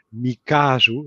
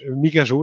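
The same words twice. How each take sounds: First: The name sounds slower, harder and heavier. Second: The name sounds quicker, easier and lighter. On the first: This is how it was called at the very beginning. The speaker calls it wrong. "Zoals het heel in het begin ook wel werd genoemd" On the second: This is the pronunciation the owners prefer. The speaker calls it right. "Dan klinkt dat wat sneller, wat makkelijker, wat luchtiger"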